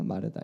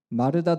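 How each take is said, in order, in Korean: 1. 이름을 부드럽고 다정한 말투로 불러요. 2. 이름을 꾸짖듯 거친 말투로 불러요. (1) "이런 좀 부드러운 억양" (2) "막 이런 이런 억양을 상상하십니까?"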